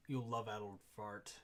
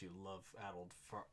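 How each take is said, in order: First: "you love-addled fart" said fully, stronger and louder; a redone, louder "you love-addled fart"; louder retake. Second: Said in the usual way. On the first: Shown as a demonstration. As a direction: spit out the insult with more force.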